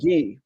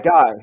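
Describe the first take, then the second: First: The name is said with a French pronunciation. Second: The name is said with an English pronunciation. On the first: This is the pronunciation the speaker uses. "I've always used Guy" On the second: This is the pronunciation the speaker does not use. "I don't go by Guy"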